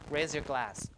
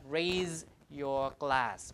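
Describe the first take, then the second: First: The z and y merge into a zh. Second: The z and y sounds stay separate. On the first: The speaker calls it right. "Z plus Y becomes that zh sound" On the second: The speaker calls it wrong. "It's not"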